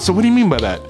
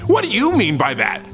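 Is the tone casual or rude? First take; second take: casual; rude. First: The question sounds relaxed and easygoing. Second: The question sounds rude and confrontational. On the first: The speaker is asking out of genuine interest. The speaker calls it right. "This is how you would say it. Keep it casual, keep it cool" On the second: The speaker is challenging the other person. The speaker calls it wrong. "Don't say it like a donkey butt"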